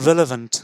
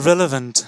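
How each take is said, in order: Both takes have the same delivery.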